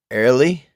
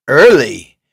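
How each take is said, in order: First: "Early" with a rising, questioning tune. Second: "Early" loud with a falling tune; emphatic single word. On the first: Streamer checking a funny-sounding word, questioning "Early". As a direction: lift the end of "Early" as a question. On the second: Streamer saying a word that sounds funny, emphatic "Early". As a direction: punch out "Early" and let it drop. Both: Shown as a demonstration.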